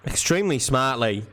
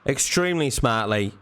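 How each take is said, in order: Both takes have the same delivery.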